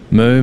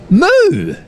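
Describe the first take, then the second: First: It sounds disappointed, like a let-down cow. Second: It sounds supportive, like a cow cheering someone on.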